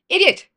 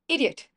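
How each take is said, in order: First: It is said loudly with aggression. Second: It is said quietly, half smiling.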